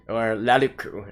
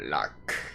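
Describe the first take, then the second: First: The name is said the Japanese way. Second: The name is said the plain English way.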